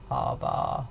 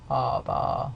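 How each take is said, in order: First: The voice is creaky, with a rough rattle. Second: The same.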